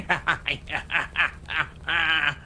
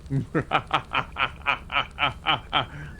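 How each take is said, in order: First: Unhinged crazy cackle; Joker laugh. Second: Cartoon villain cackle; classic evil laugh. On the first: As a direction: laugh like a madman losing it. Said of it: "like, a Joker laugh". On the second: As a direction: cackle like a bad guy gloating. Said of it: "I can do your classic". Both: Shown as a demonstration.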